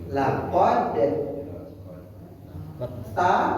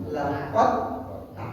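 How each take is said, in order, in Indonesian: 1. Bunyi d terdengar sebelum t. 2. Bunyi d menyatu ke dalam t yang mengikutinya.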